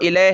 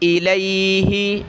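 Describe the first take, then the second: First: The word ends on the h with no vowel. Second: The word ends with a short 'i' vowel. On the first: The speaker calls it wrong. "इसको इलैह है नहीं पढ़ेंगे" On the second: The speaker calls it right. "क्या पढ़ेंगे"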